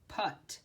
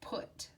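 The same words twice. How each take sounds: First: The word is sounded out as it is spelled. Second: The word is said the irregular, usual way. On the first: This reading would be a different word. The speaker calls it wrong. "it looks like we would say p-ut" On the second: This is the actual word meant here. The speaker calls it right. "This is the word put"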